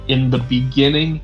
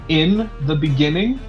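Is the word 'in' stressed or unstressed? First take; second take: unstressed; stressed. First: The word 'in' is said without special stress. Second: The word 'in' is said with clear stress.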